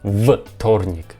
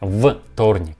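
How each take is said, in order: First: The first consonant is a voiced v sound. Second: The same.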